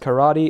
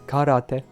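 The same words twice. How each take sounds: First: It is said with an English pronunciation. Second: It is said with a Japanese pronunciation. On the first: The speaker calls it wrong. "karate is not pronounced karate" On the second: The speaker calls it right. "it's karate. Literally means empty hand in Japanese"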